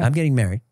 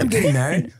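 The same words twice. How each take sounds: First: It is said in a flat, unexcited tone. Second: It is said in an excited tone.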